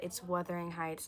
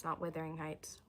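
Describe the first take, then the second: First: Wuthering said with a clear short vowel, WUTH-ering; correct pronunciation. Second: Withering Heights whispered, WITH with an ih vowel; breathy whisper of the mistaken Withering; whispered wrong version. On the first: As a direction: stress the first syllable of Wuthering. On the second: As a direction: hush it out as the wrong name. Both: Shown as a demonstration.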